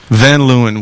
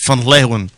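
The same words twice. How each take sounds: First: The name is said with an American pronunciation. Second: The name is said with a Dutch pronunciation. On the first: This is the everyday form that is good enough. "Van Leeuwen is American as, as cherry pie" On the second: This is how a Dutch speaker would say it. "If you're Dutch"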